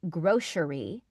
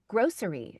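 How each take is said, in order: First: The middle consonant is an sh sound. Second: The middle consonant is an s sound. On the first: The speaker calls it wrong. "I used to say grocery with like a sh sh" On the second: The speaker calls it right. "but it's not. It's it's grocery"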